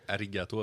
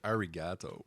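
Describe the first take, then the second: First: The R is a quick Japanese tap. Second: The R is a chewed American R. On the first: "à la place de dire" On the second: "elle va dire"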